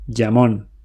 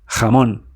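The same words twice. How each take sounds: First: It starts with a j sound as in jam. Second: It starts with a rasping sound deep in the throat. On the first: The speaker calls it wrong. "English speakers say jamón, like jam" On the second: The speaker calls it right. "Spanish from Spain, jamón ... made deep in your throat"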